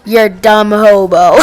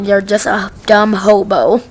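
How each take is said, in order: First: A hint of a put-on voice on "You're a dumb hobo"; deadpan mock insult in a slightly changed voice; lightly voiced employee insult. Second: Said in the usual way. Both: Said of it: "He's just like".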